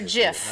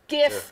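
First: The word starts with a soft G sound. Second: The word starts with a hard G sound. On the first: The speaker calls it wrong. "not a GIF" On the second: The speaker calls it right. "It's a hard G"

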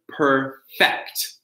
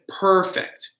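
First: The stress is on the second syllable. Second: The stress is on the first syllable. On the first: It is used as a verb. "The verb" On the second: It is used as an adjective. "Stressing the beginning is the adjective"

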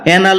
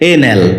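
First: The first vowel sounds like 'a' in cat. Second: The first vowel sounds like 'ay' in day. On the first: The speaker calls it wrong. "এটাকে আমরা অ্যানাল উচ্চারণ করে থাকি" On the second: The speaker calls it right. "যা সঠিক উচ্চারণ হচ্ছে এনাল"

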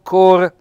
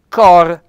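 First: The vowel O is said closed. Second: The vowel O is said open. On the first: The speaker calls it wrong. "non cor" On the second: The speaker calls it right. "il cor con la O aperta"

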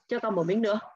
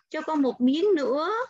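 First: It is said flatly, like a fixed template. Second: It is said softly and politely, with expression. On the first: The child just recites a set phrase. The speaker calls it wrong. "Chứ không phải" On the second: The child asks nicely and politely. The speaker calls it right. "sẽ phải có một cái gì đó nó mềm mại"

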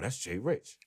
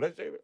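First: The tone sounds excited and starstruck. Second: The tone sounds casual and dismissive. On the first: The famous player is a big deal. "the other cats like, yo, that's Jay Rich" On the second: The famous player is nothing special here. "Not here. We like, oh, that's Jay Rich. Different inflection"

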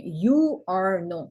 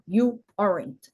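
First: All three words are said separately in full. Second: The last two words merge into one syllable. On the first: "Не you are not" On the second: "а you aren't"

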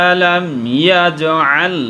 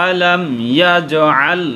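No difference in how they are said.

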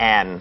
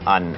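First: The vowel in the word is full and clear. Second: The vowel in the word is reduced and weak. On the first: The speaker calls it wrong. "ภาษาพูดไม่มีใครพูดว่า" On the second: The speaker calls it right. "เราพูดว่า"

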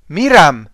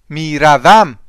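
First: The word is said in two short syllables. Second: The word is said in three full syllables. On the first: This is the everyday spoken form. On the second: This is the written form.

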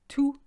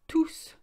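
First: The word ends without an S sound. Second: The word ends with an S sound. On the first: The noun follows the word. "you don't say the S, we say tout" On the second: The noun is no longer there. "you say the S"

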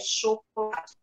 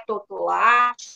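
First: The word begins with a 'sh' sound. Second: The word begins with a 't' sound. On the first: The speaker calls it right. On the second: The speaker calls it wrong.

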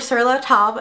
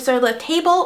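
First: The name is said with French pronunciation. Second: The name is said with English pronunciation. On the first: The speaker calls it right. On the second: The speaker calls it wrong.

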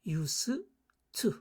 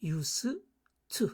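First: The two t sounds merge into one. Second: The two t sounds merge into one.

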